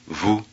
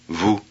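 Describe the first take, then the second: No difference in how they are said.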